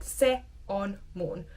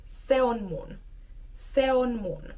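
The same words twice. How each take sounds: First: Word by word. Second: Words pushed together, natural flow; smooth connected speech; run together. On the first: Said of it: "I'm not stopping so distinctly". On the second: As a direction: glide se on mun as one unit. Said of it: "push the words a bit more together". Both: Shown as a demonstration.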